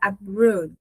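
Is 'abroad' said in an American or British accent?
British. It has a British accent, more closed vowel. "Na pronúncia britânica, ela é um pouco mais fechada"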